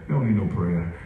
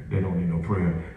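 No difference in how they are said.

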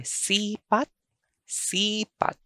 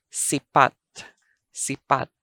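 First: Sipat with a long, high SEE; SII-pat, second syllable dropping; stress on first syllable. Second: Sipat with short SI, stressed PAT; stress on second syllable. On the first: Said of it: "I'm going to read". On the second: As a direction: clip the first vowel of sipat. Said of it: "The alternate pronunciation for sipat". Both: Shown as a demonstration.

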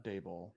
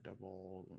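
First: "Daboll" as DAY-bull; long "ay" in the first syllable of "Daboll"; corrected pronunciation. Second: "Double" with a short "uh" in the first syllable; mispronounced surname. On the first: Host taking the co-host's correction, "Daboll" said DAY-bull. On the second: Host unsure of the coach's surname, saying "Double" with an "uh" vowel. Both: Real, not acted. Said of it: "however you pronounce it".

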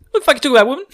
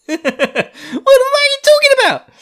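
First: High, loud mock bafflement; hammed-up annoyed retort; exasperated outburst. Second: Very high, loud mock outrage; hammed-up yell at full pitch; incredulous shriek. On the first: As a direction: snap back in comic disbelief. Rand exasperated at Celine, acted. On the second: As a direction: screech it in comic exasperation. Repeats the outburst, escalated, after laughing.

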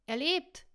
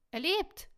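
First: High, loud cry of relief; excited shout. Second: Even higher, loud repeated cry; louder excited shout. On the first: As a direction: shout it out, much higher. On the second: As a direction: call it again, pushing higher. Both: A narrator's reading. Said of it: "schrie er aufgebracht".

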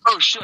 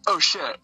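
First: Higher, punchier "oh, shit"; retold startled reaction. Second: Understated "oh, shit"; a referee's mild alarm, retold at normal volume; retold dismay. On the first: The guy sees the spurting blood, mock startled. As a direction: imitate a startled onlooker, pitched up. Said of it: "the guy just was like". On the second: Referee sees the wrestler bleeding, mildly dismayed. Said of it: "the ref looked at me and was like".

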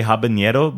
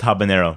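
First: Habanero with an added ny sound, as in habañero; mispronounced habanero. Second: Said in the usual way. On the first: Shown as a demonstration. Showing how some people say it, habanero with a ny. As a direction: say habanero with a Spanish ñ for the n. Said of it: "some people say habanero, but it's just habanero". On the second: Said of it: "but it's just habanero".

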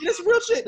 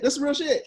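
First: Laughing. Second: Said in the usual way. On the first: Real, not acted.

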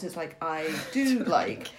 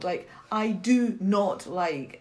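First: Slow, dropping the not; "I do like" slowly, as if not were skipped; misreading it. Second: Slow, with not said clearly; "I do not like" slowly, not kept in; reading it right. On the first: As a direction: demonstrate the misread, "do like" drawn out. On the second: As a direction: read "do not" carefully and slowly. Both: Shown as a demonstration. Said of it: "if I miss the word not".

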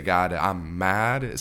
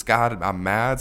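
First: Slow, louder, drawn-out mock anger; mad prayer. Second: Much louder pretend anger; mad prayer. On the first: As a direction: stretch each word of a pretend angry prayer. Voicing an honest prayer. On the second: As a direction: blurt it out loud at God. Repeating the angry prayer.

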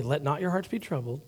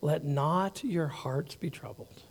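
First: Soft reassurance. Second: Quiet, slow, soothing reading; soft reassurance. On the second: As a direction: lay the verse down gently. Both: Shown as a demonstration. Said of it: "Let's pause there".

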